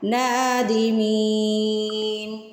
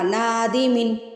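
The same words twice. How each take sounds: First: The 'ee' vowel is stretched and held long. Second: The 'ee' vowel is short and not held. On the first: The speaker calls it right. "می کو تو ہم سٹریچ کرتے ہیں نا ون سیکنڈ کے لیے" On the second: The speaker calls it wrong. "آپ نے اس کو ایسے نہیں پڑھنا"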